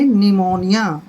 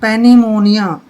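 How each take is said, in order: First: The word begins with n; p is silent. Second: The word begins with a sounded p. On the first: The speaker calls it right. "पी को हमने छोड़ देना है, silent रखना है" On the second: The speaker calls it wrong. "पेनिमोनिया नहीं पढ़ेंगे, गलत"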